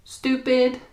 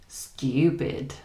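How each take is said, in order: First: American "Stupid" with a simple oo; higher, "Stupid" with no y sound; American pronunciation. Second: British RP "stupid" with a you sound; "stupid" with a y glide after the t; British pronunciation. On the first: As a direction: say "Stupid" as STOO-pid. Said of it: "It's the same with stupid". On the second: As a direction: say "stupid" as STYOO-pid. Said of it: "This U sound we use in British English". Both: Shown as a demonstration.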